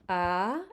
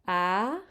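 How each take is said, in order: First: The pitch starts mid and rises high. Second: The pitch starts mid and rises high.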